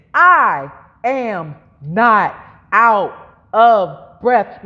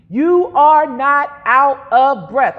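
First: Very slow, each word separated and stressed; word-by-word declaration. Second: Slow, emphatic call to repeat; led declaration. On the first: Preacher modelling a line for congregation to repeat, very slow. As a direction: spell it out word by word, firmly. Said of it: "say it like this". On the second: Preacher leading congregation to say it together, slow and emphatic. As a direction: lead the words firmly and slowly. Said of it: "Say it with me". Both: Shown as a demonstration.

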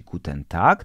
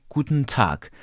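First: Guten Tag with a full E, rising; wrong Guten Tag. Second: Guten Tag as kutn tak, falling; correct Guten Tag. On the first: Teacher contrasts the wrong Guten Tag. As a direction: say it the old Polish way. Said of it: "nie będziesz mówić". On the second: Teacher contrasts the correct Guten Tag. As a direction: clip the E, breathe the stops. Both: Shown as a demonstration.

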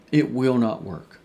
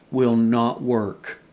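First: Said in the usual way. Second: "will not work" slowed right down, every word hit; slow emphatic denial. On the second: Shown as a demonstration.

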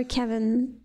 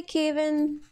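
First: Now Kevin with a short e, KEH-vun; second guess at the name. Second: Kevin said as KAY-vin, long ay vowel; first guess at the name. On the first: Player retrying the name another way: Kevin as KEH-vun. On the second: Unsure player trying the name one way: Kevin as KAY-vin. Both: Shown as a demonstration. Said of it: "I really don't know how to pronounce that".

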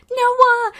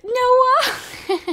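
First: High, loud call across the yard. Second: High call with a laugh through it. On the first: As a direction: call his name to get his attention. Calling neighbour Noah to come. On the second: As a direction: call him again, cracking up. Calling again, laughing. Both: Real, not acted.

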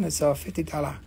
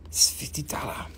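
First: Said in the usual way. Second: "It's fifty dollar" whispered, secretive; hushed price reveal. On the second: Shown as a demonstration.

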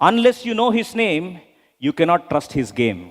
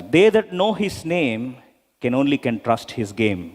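First: Drawn out, each word weighed; repeated couplet, very slow; slow rhyming recital. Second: Drawn out, each word weighed; slow measured couplet; slow rhyming recital. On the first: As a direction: recite it slowly, stressing know and cannot. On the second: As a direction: recite it like a rhyme. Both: Shown as a demonstration. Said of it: "I repeat these lines".

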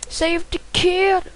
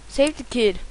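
First: Higher, slow sing-song reading; drawn-out high. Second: Said in the usual way. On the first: Pretend. Gamer reading the level name, slow high sing-song. Reads level title twice.

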